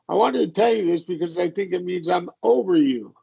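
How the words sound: The words 'over you' are emphasized.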